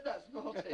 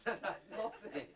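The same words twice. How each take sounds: First: A mock telling-off, half laughing; scolding through laughter. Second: Drawn-out, slow telling-off with a laugh; slow mock scold. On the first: Dad scolds his son over the bee, laughing. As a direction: try to scold but giggle. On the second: Dad repeats the scolding to his son, slowly.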